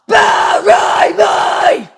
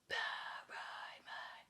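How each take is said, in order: First: It is screamed at full voice. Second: It is whispered.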